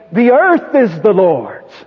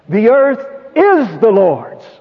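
First: The word "earth" carries the main stress. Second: The word "is" carries the main stress. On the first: Everything in the world, nothing excepted, belongs to God. "That is, everything in the earth" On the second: It belongs to God despite appearances to the contrary. "In spite of everything that's going on about us to the contrary"

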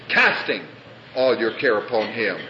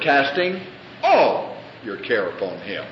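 First: The word casting is stressed. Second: The word all is stressed. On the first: "You emphasize the first word" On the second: "The next word"

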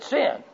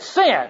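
First: It is said louder than before. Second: It is said loudest of all.

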